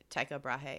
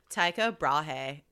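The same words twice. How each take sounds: First: It is said in the speaker's plain accent. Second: It is said in an exaggerated Californian accent.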